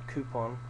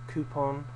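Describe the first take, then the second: Both takes have the same delivery.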